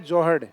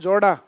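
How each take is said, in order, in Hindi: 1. शब्द में 'h' ध्वनि रखी जाती है। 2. शब्द से 'h' ध्वनि छोड़ दी जाती है। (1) "सही शब्द है जोहड़" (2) "गांव में बोलते हैं जोड़ा। ... है को उड़ा देते हैं"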